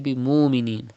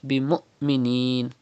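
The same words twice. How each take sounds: First: The sounds flow without a sudden stop. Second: There is a sudden stop before the m. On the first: The speaker calls it wrong. "Do not say" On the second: The speaker calls it right. "pronounced with sudden pause"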